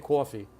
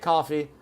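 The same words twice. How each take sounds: First: It is said in a New York accent. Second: It is said in a Los Angeles accent. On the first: "I'm guessing you say coffee" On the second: "I say coffee"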